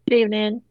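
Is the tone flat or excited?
flat. It is said flatly, without excitement.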